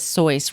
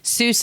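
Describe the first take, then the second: First: The vowel rhymes with the word voice. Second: The name is said with an American vowel. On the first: "the German pronunciation is Seuss, rhyming with voice" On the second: "Seuss is an Anglicized, ... American version"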